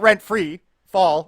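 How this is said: Free is joined to rent, as rent-free. An autumn without paying rent. The speaker calls it wrong. "not rent-free fall"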